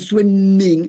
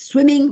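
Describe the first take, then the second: First: The m is held long, like a double consonant. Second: The m is short, like a single consonant. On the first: The speaker calls it wrong. "ma non swimming" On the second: The speaker calls it right. "swim is swimming"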